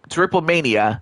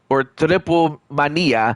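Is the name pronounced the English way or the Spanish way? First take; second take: English; Spanish. First: The name is pronounced with English sounds. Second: The name is pronounced with Spanish sounds.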